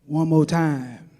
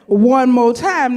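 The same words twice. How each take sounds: First: Low, slow, deep crooning voice. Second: Louder, slow, drawn out call. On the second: Third call from the man at rehearsal, louder and slow. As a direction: stretch it out loud. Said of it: "I hear this voice say". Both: Retold or imitated.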